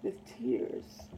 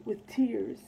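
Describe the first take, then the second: First: Whispered, much lower and softer, dying away; fading whisper. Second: Said in the usual way. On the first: Acted. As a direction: let the last "with tears" vanish into a whisper. Repeated line fades to whisper.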